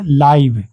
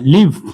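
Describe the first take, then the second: First: The vowel sounds like the word 'eye'. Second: The vowel sounds like the word 'it'. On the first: The speaker calls it wrong. "लाइव नहीं, लाइव नहीं बोलना है" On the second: The speaker calls it right. "लिव मतलब होता है रहना"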